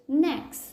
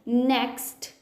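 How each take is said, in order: First: The T sound is dropped completely. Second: The T sound is clearly pronounced. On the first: The speaker calls it right. "I'm not gonna pronounce it at all" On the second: The speaker calls it wrong. "I'm not saying it as next"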